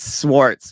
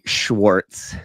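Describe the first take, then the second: First: The name begins with a plain s sound. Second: The name begins with an sh sound. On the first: This is the name's real pronunciation. The speaker calls it right. "it's it's Swartz" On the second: The name is said wrong on purpose to tease. The speaker calls it wrong. "I neg him by calling him Joey Schwartz"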